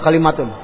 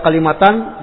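First: The word ends with an 'un' sound. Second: The word ends with an 'an' sound. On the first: "boleh dibaca kalimatun" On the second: "Boleh dibaca kalimatan"

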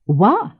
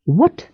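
First: The final T sound is swallowed and dropped. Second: The final T sound is clearly pronounced.

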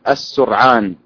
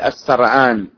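First: The first vowel is u, with no vowel after r. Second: The first vowel is a, with no vowel after r. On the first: "ويجوز ضم السين وإسكان الراء" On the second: "ويجوز إسكان الراء"

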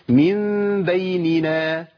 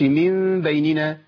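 First: Each n sound is given its full length. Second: The n sounds are rushed and run together. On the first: The speaker calls it right. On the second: The speaker calls it wrong.

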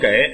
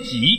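First: The word is pronounced gei. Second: The word is pronounced ji. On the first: The speaker calls it wrong. "我们都念给" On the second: The speaker calls it right. "念挤"

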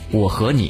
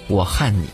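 First: Said with the Mainland reading of the middle word. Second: Said with the Taiwanese reading of the middle word. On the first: "就把我和你读作" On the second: "读作我和你"

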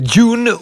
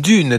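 First: The name is pronounced with a French sound. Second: The name is pronounced with an American sound. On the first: The person is French. "si elle est française" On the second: The person is American. "ou américaine"

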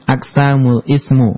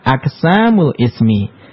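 First: The final word ends in the vowel u. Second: The final word ends in the vowel i. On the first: The speaker calls it wrong. "enggak boleh dibaca" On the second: The speaker calls it right. "yang benar adalah"

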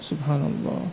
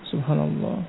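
Both takes have the same delivery.

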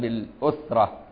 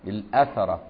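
First: The first vowel is u. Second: The first vowel is a. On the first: "بضم الهمزة" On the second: "وفتحها"

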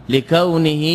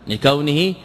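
Both takes have the same delivery.

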